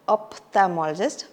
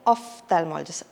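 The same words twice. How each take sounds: First: The ph is said with a p sound. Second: The ph is said with an f sound. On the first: The speaker calls it wrong. "We don't say ophthalmologist" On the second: The speaker calls it right. "P H is a F sound"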